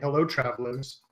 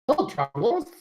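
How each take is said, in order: First: It is said in the speaker's normal voice. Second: It is said in a put-on high-pitched voice. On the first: "I'll avoid doing voices" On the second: "Supposed to be high-pitched voice"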